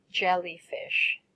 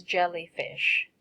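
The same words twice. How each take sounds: First: Jellyfish said slowly, syllable by syllable, for the class to copy; careful teacher's model of Jellyfish, slow and distinct; slow model word. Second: Said in the usual way. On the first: Shown as a demonstration. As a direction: draw out Jellyfish clearly and slowly, JEL-ly-fish. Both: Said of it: "first I will say the words and then you will say it after me".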